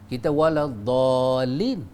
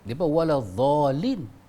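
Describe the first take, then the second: First: The word starts with a heavy d-like sound. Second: The word starts with a z sound. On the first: This is how we pronounce it. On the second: This is how they pronounce it. "Dia orang dot dengan za"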